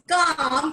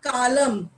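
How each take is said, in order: First: The L sound is silent. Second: The L sound is pronounced. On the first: The speaker calls it right. "is pronounced as calm ... because L is silent" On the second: The speaker calls it wrong. "and not column"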